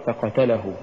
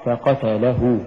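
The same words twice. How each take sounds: First: "فقتله" quick and falling, weak la; mispronounced فقتله. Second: "فقتله" with a gentle push on the lam; correct فقتله. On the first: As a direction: say فقتله with no push on the lam. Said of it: "ولا تقرأ". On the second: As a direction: set la slightly apart in فقتله. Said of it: "فتقرأ". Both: Shown as a demonstration.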